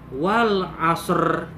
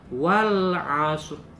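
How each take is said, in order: First: The final r is clearly sounded out. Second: The final r is faint, barely heard. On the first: The speaker calls it wrong. "Yang salah wal asr. Itu salah" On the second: The speaker calls it right. "yang betul adalah wal asr. huruf ro-nya itu hanya terasa oleh kita, tidak terdengar secara jelas"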